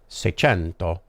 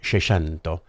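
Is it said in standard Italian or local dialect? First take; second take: standard Italian; local dialect. First: It is said in standard Italian. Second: It is said in the local dialect.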